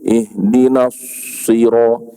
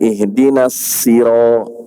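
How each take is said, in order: First: The s-sound is heavy, with a full rounded mouth. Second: The s-sound is light, with spread smiling lips. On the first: The speaker calls it right. "Yang betulnya" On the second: The speaker calls it wrong. "Kan boleh senyum kan"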